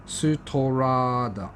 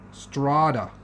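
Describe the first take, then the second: First: Slow "Sutorada", syllable by syllable; sounding out Japanese. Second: Said in the usual way. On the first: Real, not acted. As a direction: sound out Sutorada with extra vowels, su-to-ra-da. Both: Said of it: "not very good at reading Japanese".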